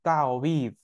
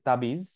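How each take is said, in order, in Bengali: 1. মাঝের ব্যঞ্জনটি w উচ্চারণ। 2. মাঝের ব্যঞ্জনটি b উচ্চারণ। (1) "অ্যাকচুয়ালি এটার আসলুহা তাওয়িজ" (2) "বাংলায় যে শব্দটা আমরা ইউজ করি তাবিজ, এইটা আসলে উচ্চারণটা একটু বিকৃত হয়ে গেছে"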